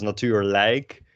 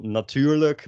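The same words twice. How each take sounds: First: "natuurlijk" with a full "like" at the end; "natuurlijk" said as natuur-LIKE; emphasized "like" ending. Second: "natuurlijk" with a reduced "-luk" ending; higher "natuurlijk", last syllable a schwa; unemphasized -lijk ending. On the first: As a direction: slowly stress the -lijk of "natuurlijk" as "like". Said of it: "emphasizing the like". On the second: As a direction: let the end of "natuurlijk" shrink to "luk". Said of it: "they are unemphasized". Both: Shown as a demonstration.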